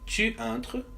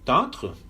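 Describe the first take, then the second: First: The pronoun is said in full before the verb. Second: The pronoun's vowel is dropped, joined to the verb.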